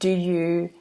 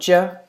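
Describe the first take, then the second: First: Both words are said fully and separately. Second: The words blend into one reduced syllable.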